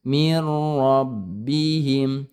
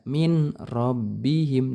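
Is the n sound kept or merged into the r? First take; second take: merged; kept. First: The n sound merges into the following r. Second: The n sound is pronounced separately before r. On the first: The speaker calls it right. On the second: The speaker calls it wrong. "jangan dibaca min robbihim"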